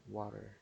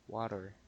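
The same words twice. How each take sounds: First: The middle consonant sounds like a soft D. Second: The middle consonant sounds like a soft D.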